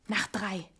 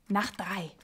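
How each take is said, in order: Both takes have the same delivery.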